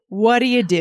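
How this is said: The words are run together smoothly.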